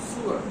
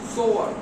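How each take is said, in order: First: The first vowel sounds like 'too'. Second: The first vowel sounds like 'go'. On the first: A drain pipe for waste. "সুয়ার line." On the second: A person who sews. "প্রথমটা হচ্ছে সোয়ার।"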